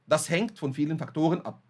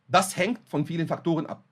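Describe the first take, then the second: Both takes have the same delivery.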